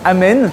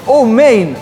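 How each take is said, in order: First: The first vowel is an open ah sound. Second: The first vowel is a rounded oh sound. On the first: "Les Sfarades répondent" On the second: "les Ashkénazes répondent"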